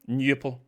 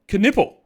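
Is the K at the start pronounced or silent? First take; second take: silent; pronounced. First: The K at the start is silent. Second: The K at the start is pronounced. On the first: "surely it's a silent K" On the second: "a man who doesn't really know how to pronounce his own name"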